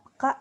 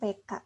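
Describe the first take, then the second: First: The first vowel is a weak schwa. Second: The first vowel is a clear e. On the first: The speaker calls it wrong. "nah itu salah ya" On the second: The speaker calls it right. "E-nya pakai curek dibacanya ada E. Nah, E taling ya disebutnya"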